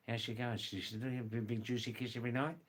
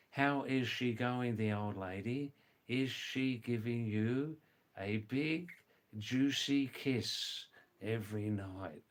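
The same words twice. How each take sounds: First: Fast, run-together Australian colloquial question; quick casual Australian slang example; rapid Australian English. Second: Slow, carefully separated words; measured, word-by-word teaching delivery; slow full version. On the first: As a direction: rattle it off like a local, rising at the end. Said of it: "words in Australian English". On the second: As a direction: spell it out for a learner, pausing between phrases. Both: Shown as a demonstration.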